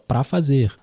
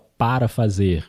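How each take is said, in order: First: The first word is shortened to one syllable. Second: The first word is said in full. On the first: This is casual spoken language. The speaker calls it right. "a gente fala" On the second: This is formal written language. The speaker calls it wrong. "a gente não fala"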